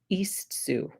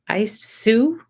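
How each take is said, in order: First: The first part begins with an 'ee' vowel. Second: The first part begins with an 'eye' vowel. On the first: The speaker calls it right. "It's Sue" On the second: The speaker calls it wrong. "I don't know if that's how you say it or not"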